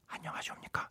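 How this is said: It is said quietly, with the volume reduced.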